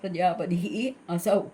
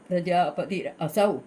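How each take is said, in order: First: The words are separated with a final h sound. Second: The words run together through an r sound. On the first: The speaker calls it right. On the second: The speaker calls it wrong.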